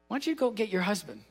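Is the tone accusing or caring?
caring. It sounds gentle and caring.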